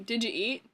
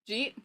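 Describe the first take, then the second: First: Each word is said fully and separately. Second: The words run together into one syllable.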